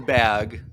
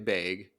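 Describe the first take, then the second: First: Bag is said with a general American vowel. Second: Bag is said with a Missouri-accented vowel. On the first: This is how most other people say it. "everyone else says bag" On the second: This is how people from the speaker's home say it. "we miss will say bag"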